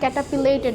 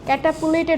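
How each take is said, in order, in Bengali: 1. দ্বিতীয় সিলেবলটি 'pi' হিসেবে উচ্চারিত হয়। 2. দ্বিতীয় সিলেবলটি 'pu' হিসেবে উচ্চারিত হয়। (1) "পি হবে এটা" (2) "ক্যাটাপুলেটেড হবে না"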